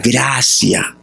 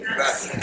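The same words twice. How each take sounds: First: Said in the usual way. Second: Whispered answer. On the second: Shown as a demonstration. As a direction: whisper the word Gracia. (Gracia susurrada) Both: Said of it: "¿Qué nos provee?".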